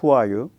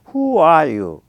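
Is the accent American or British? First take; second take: American; British. First: It is said plainly in an American way. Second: It is said with strong British-style intonation. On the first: "미국식이나 좀 쿨하게 하면 그렇게 해야 되는데" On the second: "이게 인토네이션이 무지하게 심해요"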